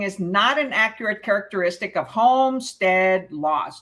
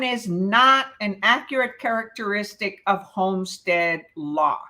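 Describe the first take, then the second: First: The word 'not' is said without stress. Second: The word 'not' is said with strong stress. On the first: The speaker calls it wrong. "did I emphasize not?" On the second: The speaker calls it right. "I didn't read it correctly"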